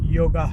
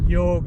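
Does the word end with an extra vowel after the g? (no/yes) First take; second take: yes; no. First: The word ends with an added a vowel. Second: The word ends on the g sound. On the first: The speaker calls it wrong. "Distorted form" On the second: The speaker calls it right. "सही form"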